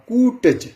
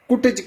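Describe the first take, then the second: First: The first vowel is long. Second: The first vowel is short. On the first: The speaker calls it right. "उचित उच्चारण होगा कूटज" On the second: The speaker calls it wrong. "कुटज कहना गलत होगा"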